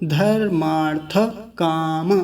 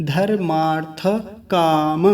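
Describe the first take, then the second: No difference in how they are said.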